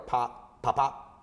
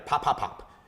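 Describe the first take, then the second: First: The three pops are separated by longer gaps. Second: The three pops come quickly, close together. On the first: The speaker calls it wrong. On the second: The speaker calls it right. "So three together"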